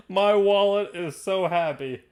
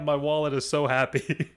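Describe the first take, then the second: First: Higher, drawn-out savoring of each word; slow gloating. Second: Said in the usual way. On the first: Real, not acted. Host relieved the player lost the roll, slow gloating. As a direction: stretch it out with relish.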